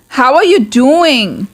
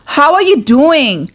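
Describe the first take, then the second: No difference in how they are said.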